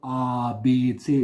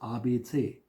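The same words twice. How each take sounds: First: Each letter name is drawn out long. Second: Each letter name is clipped short. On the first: The speaker calls it wrong. "It's not A, B, C" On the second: The speaker calls it right. "the letters are short"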